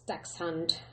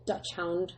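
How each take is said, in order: First: The first part sounds like 'docks'. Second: The first part sounds like 'dutch'. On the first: The speaker calls it right. "I think that's how you say it" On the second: The speaker calls it wrong. "sometimes pronounced as Dutch Hound, but that's not right"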